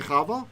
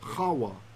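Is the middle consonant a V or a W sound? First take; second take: V; W. First: The middle consonant is a V sound. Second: The middle consonant is a W sound. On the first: This is the usual modern pronunciation. "we usually say Chava" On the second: This is the ancient pronunciation of the name. "which was a W sound. So I like to call her Chawa"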